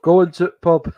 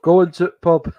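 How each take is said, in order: First: It is said in a northern English accent. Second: The same.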